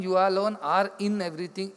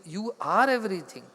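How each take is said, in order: First: "in" picked out with extra weight; stress on IN. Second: "are" lengthened and firmly weighted; stress on ARE. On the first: Teacher correcting "in everything" to listeners, stress on IN. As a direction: lean on "in" as the idea to be corrected. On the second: Teacher giving the corrected truth, stress on ARE. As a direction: land hard on "are" as the correction. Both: Shown as a demonstration. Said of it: "Not even you alone are in everything".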